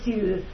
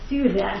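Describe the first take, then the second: First: The word is said in a plain, ordinary pronunciation. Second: The word is said in a put-on, imitated pronunciation.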